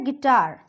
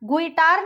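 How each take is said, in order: First: No u sound follows the g. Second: A u sound follows the g. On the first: The speaker calls it right. "वो होता है गिटार" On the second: The speaker calls it wrong. "गुइटार नहीं होता है"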